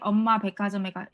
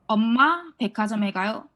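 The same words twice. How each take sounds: First: The pitch stays flat on the syllable 마. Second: The pitch rises on the syllable 마. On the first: The speaker calls it wrong. "it feels awkward if you if you say that" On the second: The speaker calls it right. "I'll raise 마"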